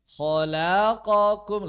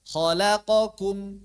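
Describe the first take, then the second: First: The syllables are drawn out more slowly than normal. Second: Every syllable is held for the same short length. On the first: The speaker calls it wrong. "lebih lambat" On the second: The speaker calls it right. "semuanya sama satu harakat"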